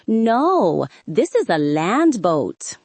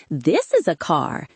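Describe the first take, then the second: First: No, this IS a land boat, slowed and stressed on is; slow emphatic retort. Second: Put-on light Spanish accent, grandmother; a hint of a Spanish-accented grandma; lightly voiced Spanish grandmother. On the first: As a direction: drag it out in disbelief. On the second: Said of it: "she said in her Spanish accent". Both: A narrator's reading.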